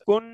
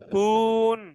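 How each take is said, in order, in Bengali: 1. সিলেবলটি দ্রুত ও ছোট করে বলা হয়েছে। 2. সিলেবলটি লম্বা করে টানা হয়েছে। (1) "দ্রুত ধরতে হবে" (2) "আমি এরকম একটা আবার শুনতে পাইছি, ... এমন হবে না ভাই"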